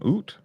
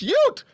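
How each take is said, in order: First: The word starts with a plain 'oo' sound. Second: The word starts with a 'yoo' sound. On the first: The speaker calls it wrong. "What did I say the first time? Oot. Damn" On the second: The speaker calls it right. "It's ute, idiot"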